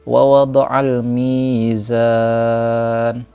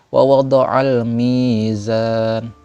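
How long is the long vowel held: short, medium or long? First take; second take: medium; short. First: The long vowel is held for four counts. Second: The long vowel is held for two counts. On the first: "Boleh empat" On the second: "Cara bacanya boleh dua tadi"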